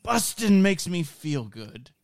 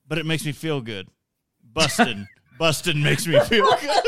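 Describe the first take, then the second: First: Slow, high, pure and innocent; innocent Paul Rudd. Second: Lightly voiced innocent Paul Rudd; sing-song, laughing through it; Paul Rudd impression. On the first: Retold or imitated. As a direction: deliver it with wide-eyed innocence. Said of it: "he just delivers it, like, so innocent and purely". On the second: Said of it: "He's like".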